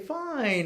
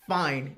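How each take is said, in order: First: The word is said in a cheerful, content tone. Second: The word is said in a flat, resigned tone. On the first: The person is genuinely pleased. "that means I'm happy" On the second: The person has given up arguing. "means whatever. I'm giving up"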